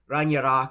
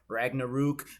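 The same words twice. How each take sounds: First: It is pronounced closer to the original Norse. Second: It is pronounced the American English way. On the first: "I think it's like Ragnarok or something like that" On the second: "I said I would say the American pronunciations like"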